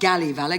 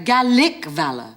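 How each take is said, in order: First: The word is articulated sloppily and incompletely. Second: The word is articulated crisply and fully. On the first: The speaker calls it wrong. "not galley valour" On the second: The speaker calls it right.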